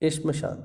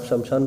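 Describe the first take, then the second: First: It starts with a tight 'shm' cluster, no vowel. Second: A vowel is inserted between 'sh' and 'm'. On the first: The speaker calls it right. "इसकी सही वर्तनी श्मशान ही है" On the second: The speaker calls it wrong. "अगर आप शमशान पढ़ते हैं तो वो गलत है"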